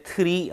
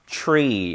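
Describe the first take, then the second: First: "tree" said as "teu-ree"; wrong separated tr. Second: "tree" said as one syllable, "chree"; correct affricated tr. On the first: Teacher demonstrating the mistake, "tree" as "teu-ree". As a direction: put a vowel between t and r in "tree". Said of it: "tree 아니죠". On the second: Teacher giving learners the right take, "tree" as "chree". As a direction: start "tree" with a ch-like blend. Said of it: "이거하고 똑같죠". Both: Shown as a demonstration.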